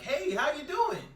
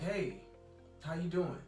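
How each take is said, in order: First: The voice is higher, quicker and more excited. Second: The voice is deeper, slower and calmer. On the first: The speaker calls it wrong. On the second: The speaker calls it right.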